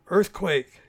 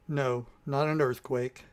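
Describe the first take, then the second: First: Loud alarmed shout of the word; Earthquake! shouted in alarm. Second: Slow, weary sighed correction; a mild sigh, calm and unhurried. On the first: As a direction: yell out a warning as the ground shakes. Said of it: "shouted Christopher". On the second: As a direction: let it out on a tired breath. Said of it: "Sylvan sighed". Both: A narrator's reading.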